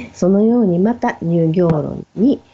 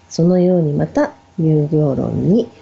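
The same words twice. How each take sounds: No difference in how they are said.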